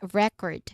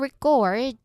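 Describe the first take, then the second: First: The stress is on the first syllable. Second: The stress is on the second syllable. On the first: It names a physical disc that stores music. "where the first syllable is stressed" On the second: It names the action of capturing sound. "the second syllable is stressed"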